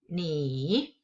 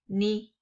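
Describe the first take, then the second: First: It is said with the marked tone. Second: It is said without the marked tone. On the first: "with the accent mark, you have to change the tone to ni" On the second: "Without accent mark, ... we probably pronounce it as ni"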